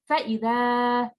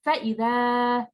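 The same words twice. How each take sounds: First: The sound is thin, with an open mouth. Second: The same.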